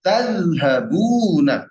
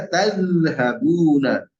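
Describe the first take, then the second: First: Slow Tazhabuna with the zal bitten; careful Arabic model word. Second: Slow tazhabuna, stressing the bitten z; careful Arabic model word. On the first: Teacher correcting a student with a slow Tazhabuna. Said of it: "zalnya ya". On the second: Teacher repeats tazhabuna, stressing the zal. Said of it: "Taz-, zalnya ya". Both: Shown as a demonstration.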